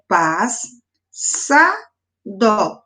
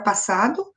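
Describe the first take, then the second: First: "pas, sa, dó" as three slow, separated beats; syllable by syllable. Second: Said in the usual way. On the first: Shown as a demonstration. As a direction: pause after each syllable of "pas, sa, dó". ("pas, sa, dó" separado em sílabas, com pausas) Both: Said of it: "Os S separados".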